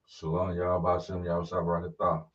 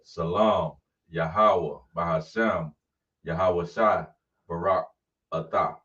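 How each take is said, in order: First: It is said quickly, run together. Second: It is said slowly, broken into parts.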